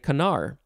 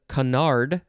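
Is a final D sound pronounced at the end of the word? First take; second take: no; yes. First: The word ends without any D sound. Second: The word ends with an audible D sound.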